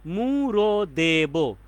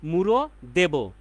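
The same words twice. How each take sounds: First: "মুড়ো দেব" very slow, each syllable stretched; drawn-out syllables. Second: Said in the usual way. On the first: Shown as a demonstration. ("মুড়ো দেব" প্রতিটি অক্ষর টেনে টেনে, খুব ধীরে) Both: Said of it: "এখানে আমরা অক্ষর পাচ্ছি".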